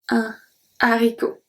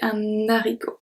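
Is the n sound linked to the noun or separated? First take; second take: separated; linked. First: The article stays separate from the noun. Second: The n sound links into the noun. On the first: The speaker calls it right. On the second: The speaker calls it wrong.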